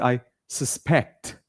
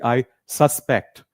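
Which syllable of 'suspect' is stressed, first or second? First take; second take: second; first. First: The stress is on the second syllable. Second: The stress is on the first syllable. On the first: The speaker calls it right. "You put the stress on the last part" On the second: The speaker calls it wrong. "a lot of people mispronounce this word"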